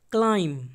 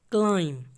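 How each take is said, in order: Both takes have the same delivery.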